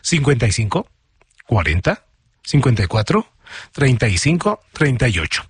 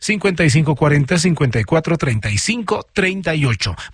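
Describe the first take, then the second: First: The number is read slowly, group by group. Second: The number is read at normal, quick pace.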